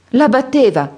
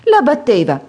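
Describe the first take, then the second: First: Grido alto e allarmato; esclamazione allarmata. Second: Grido alto e forte di spavento; grido allarmato. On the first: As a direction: scatta in piedi sconvolta. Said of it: "esclamò la ragazza in lutto". (la vedova esclama sconvolta, alta e forte) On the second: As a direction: urla la notizia sconvolta. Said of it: "gridò la madre di Edith". (la madre grida allarmata, alta e forte) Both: A narrator's reading.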